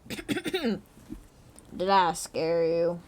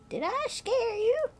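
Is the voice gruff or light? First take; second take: gruff; light. First: The voice is low and gruff. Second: The voice is light and not gruff. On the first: The speaker calls it right. "His voice is surprisingly gruff" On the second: The speaker calls it wrong. "Wrong old man voice"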